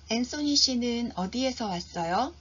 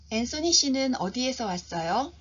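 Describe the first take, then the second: No difference in how they are said.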